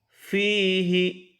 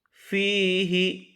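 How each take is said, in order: The two takes are said the same way.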